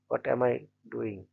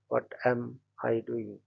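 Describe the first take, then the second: First: The word 'doing' is stressed. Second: The word 'am' is stressed.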